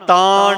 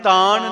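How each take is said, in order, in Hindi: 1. अंतिम n एक मूर्धन्य n है। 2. अंतिम n एक सादा दंत्य n है। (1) "ਇੱਥੇ ਨਾਣਾ ਹੈ, ਨਾਣਾ।" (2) "ਤਾਣ ਨਹੀਂ ਕਹਿਣਾ। ਨੰਨੇ ਦਾ ਉਚਾਰਨ ਉਹ ਨਹੀਂ ਹੋਣਾ ਚਾਹੀਦਾ"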